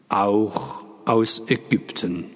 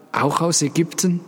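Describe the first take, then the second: First: Slow, falling statement on "Auch aus Ägypten"; confirming. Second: Raised-pitch question on "Auch aus Ägypten". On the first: Father confirming to the questioner, slow and settled. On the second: Someone asking father about the boy's origin, questioning. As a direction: ask "Auch aus Ägypten" high, climbing to the end. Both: A narrator's reading.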